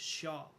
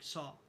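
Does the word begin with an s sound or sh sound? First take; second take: sh; s. First: The word begins with an sh sound. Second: The word begins with a plain s sound. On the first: The speaker calls it right. "It's supposed to be shaw" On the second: The speaker calls it wrong. "sometimes I'll be like saw. That's not how you say it"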